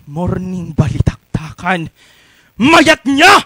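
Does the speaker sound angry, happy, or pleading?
angry. It is said in an angry way.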